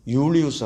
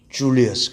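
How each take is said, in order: First: The name begins with a Y sound. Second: The name begins with a J sound. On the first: This is the Latin form of the name. "라틴어 발음" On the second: This is the English form of the name. "영어 발음하면"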